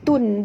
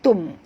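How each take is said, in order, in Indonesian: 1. Suku kata itu berakhir dengan bunyi n. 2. Suku kata itu berakhir dengan bunyi m sengau. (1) "dia tak boleh jadi tun" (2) "bunyi dia kena bunyi tum"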